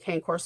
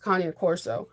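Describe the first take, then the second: First: The name is said with an Anglicized pronunciation. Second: The name is said with an Italian pronunciation. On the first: The speaker calls it wrong. "I kept calling him a cane corso" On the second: The speaker calls it right. "It's an Italian word. It's Cagna Corso"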